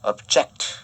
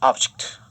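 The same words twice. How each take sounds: First: The stress is on the second syllable. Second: The stress is on the first syllable. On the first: It is a verb meaning to oppose. "액센트가 object 이런 식으로 뒤로 가면" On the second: It is a noun meaning a thing or a goal. "액센트가 object 이런 식으로 앞에 오면은"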